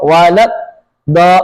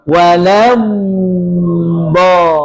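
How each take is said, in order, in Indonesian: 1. Bunyi d dihentikan mendadak, tanpa aliran. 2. Bunyi d ditahan dan dialirkan sebelum vokal. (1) "Nggak boleh hilang suaranya" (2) "tapi dad-nya dialirkan"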